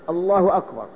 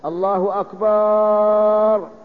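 First: Both words are said with their normal vowels. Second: The second vowel of akbar is lengthened. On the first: It is a plain statement of God's greatness. The speaker calls it right. "بهذا اللفظ" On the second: The word becomes the plural of drum. The speaker calls it wrong. "لأن أكبر جمع كبر"

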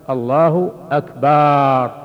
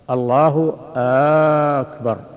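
First: The vowel after b in Akbar is drawn out. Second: The opening vowel of Akbar is drawn out long. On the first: Speaks of drums instead of greatness. "لو مد الباء فقال" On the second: Asks whether God is the greatest. "لو مد همزة أكبر فقال"

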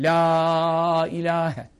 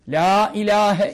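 First: The vowel of 'la' is drawn out long. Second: The vowel of 'la' is short and quick. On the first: "Ama la'yı 4-5 uzatabilirsin yani" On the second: "Bu en hızlı okuması"

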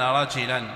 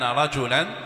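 First: The vowel after the first consonant is i. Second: The vowel after the first consonant is u. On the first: His hair was moderately wavy. "فإذا قلنا إن الرواية بالكسر" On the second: He was a man. "وإذا قلنا برفع الجيم"

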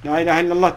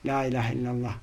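First: It is said harshly, like a pushy command. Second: It is said gently, as if saying it oneself. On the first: The dying person is being ordered to say it. The speaker calls it wrong. "Gibi değil, kırıcı, üzücü, rahatsız edici" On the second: The speaker is saying it for themselves, inviting repetition. The speaker calls it right. "sanki sen kendin diyormuşsun gibi"

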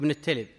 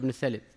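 First: The name is said with a plain 't' sound. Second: The name is said with a lisped 'th' sound. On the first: This is the name's true form. The speaker calls it right. "يعني هو ابن التلب" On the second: A narrator with a lisp said it this way. The speaker calls it wrong. "شعبة كان فيه لثغة فكان يقول ابن الثلب"

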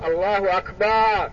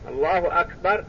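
First: The vowel before the final r is drawn out long. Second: The vowel before the final r is kept short. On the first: It sounds like the word for a drum. The speaker calls it wrong. "يقول الله أكبر، هذا غلط" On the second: It means God is greatest. The speaker calls it right. "الله أكبر تكسرها"

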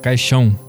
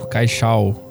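First: The final vowel sounds nasal, like ão. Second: The final vowel sounds oral, like plain ao. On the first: The speaker calls it right. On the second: The speaker calls it wrong.

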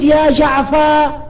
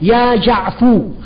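First: The name ends on the f without a 'u' vowel. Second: The name ends on the f with a 'u' vowel. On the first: The final r may or may not still follow. "لكنني لو قلت يا جعفا الآن أنا حر" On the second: The name is cut off and no final r is expected. "الذي يجعل هذا الفاء مضموما معناه أنه يقطع على المتلقي"

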